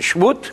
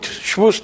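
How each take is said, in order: First: It is pronounced in the Sephardic style. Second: It is pronounced in the Ashkenazi style.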